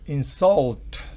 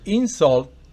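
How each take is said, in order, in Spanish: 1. El acento está en la segunda sílaba. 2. El acento está en la primera sílaba. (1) "el verbo en la segunda estrofa llevan el acento fonético" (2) "El sustantivo, recuerde, en la primera estrofa"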